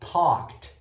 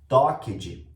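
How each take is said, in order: First: The ending is pronounced as a short t sound. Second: The ending is pronounced as a separate 'ed' syllable. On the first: The speaker calls it right. "tem um sonzinho de T no final" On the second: The speaker calls it wrong. "muitos alunos costumam falar talked, hum, e é muito errado"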